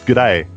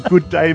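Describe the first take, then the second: First: It is squeezed into one word, g'day. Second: It is said as two full separate words. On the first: The speaker calls it right. "It's one word. It's a contraction. It's g'day. You only say the g" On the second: The speaker calls it wrong. "you're saying it wrong. No, you can't say good day, mate. It's not two words"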